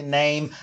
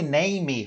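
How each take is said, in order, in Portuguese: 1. A palavra termina no m, sem vogal extra. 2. Um som de vogal extra vem depois do m final. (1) "fale name" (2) "não pronunciem a letra E no final das palavras"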